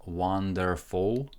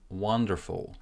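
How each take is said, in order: First: The unstressed vowels are pronounced fully. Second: The unstressed vowels are reduced and short. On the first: The speaker calls it wrong. "there is no E here and there is no U. I'm not saying wonderful" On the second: The speaker calls it right. "I'm saying wonderful. Stress in the first syllable"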